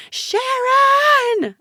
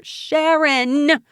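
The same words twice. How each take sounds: First: Very high, loud scream of a name; drawn-out, full-force scream. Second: Raised, high call of a name; drawn-out, high shout. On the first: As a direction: scream desperately for attention. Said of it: "I screamed". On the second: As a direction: shout to someone across the room. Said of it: "I shouted". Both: A narrator's reading.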